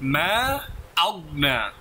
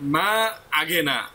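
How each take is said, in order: First: The g and n sounds come directly together. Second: A vowel is inserted between the g and n. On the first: The speaker calls it right. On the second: The speaker calls it wrong.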